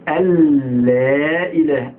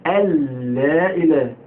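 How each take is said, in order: The two takes are said the same way.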